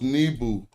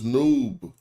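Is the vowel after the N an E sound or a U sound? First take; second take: E sound; U sound. First: An E vowel comes between N and B. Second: A U vowel comes between N and B. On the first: The speaker calls it wrong. "we just put the E right here in between this" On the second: The speaker calls it right. "they put the U sound in between the N and the B"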